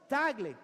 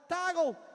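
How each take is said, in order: First: The name has an open 'ah' first vowel. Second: The name sounds like the word toggle. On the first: This is the name's real pronunciation. The speaker calls it right. "it's Tagle" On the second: This is how a navigation device mispronounces the name. The speaker calls it wrong. "the G P S sometimes say, "Toggle"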